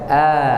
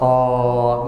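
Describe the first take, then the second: First: The vowel is a plain, unrounded 'a'. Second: The vowel is opened wide and rounded. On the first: The speaker calls it right. "a biasa" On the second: The speaker calls it wrong. "jangan buka mulut oh seperti orang baru bangun"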